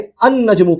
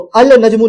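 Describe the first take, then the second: First: The L merges into a doubled N sound. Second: The article's L sound is clearly pronounced. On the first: The speaker calls it right. "अन नजमु कह रहे हैं, लाम को स्किप कर दे रहे हैं" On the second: The speaker calls it wrong. "अल नजमु नहीं बोल रहे हैं, लाम प्रोनाउंस नहीं कर रहे हैं"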